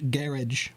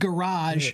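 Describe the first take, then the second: First: The word is said in a British way. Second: The word is said with a French-like ending. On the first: The speaker calls it wrong. "not the British garage version" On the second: The speaker calls it right. "is more closely pronounced the way the French pronounce it"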